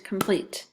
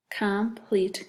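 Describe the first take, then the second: First: Said in the usual way. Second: "Complete" slowly as com, pleat, both full; split into syllables. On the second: Shown as a demonstration. Teacher putting two syllables together, "Complete" slowly in parts. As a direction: give "Complete" two even, separate beats. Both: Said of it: "That's two syllables too".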